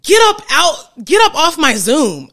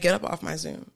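First: It is said in a louder voice. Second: It is said in a lowered voice.

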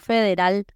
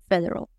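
First: The R is strong, Spanish-style. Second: The R is soft, English-style. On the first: The speaker calls it wrong. "no federal" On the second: The speaker calls it right. "La R tan importante, suavecita, ... sino federal"

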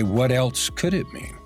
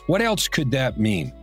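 First: It sounds calm and genuinely curious. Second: It sounds frustrated and defensive.

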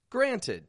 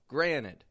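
First: The word is said carefully, matching its spelling. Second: The word is said casually, unlike its spelling. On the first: "It's spelled granted" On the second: "the pronunciation that I'm using right now, granted, is a little bit different from the spelling"

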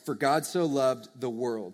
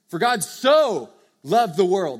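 First: The word world is stressed. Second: The word so is stressed.

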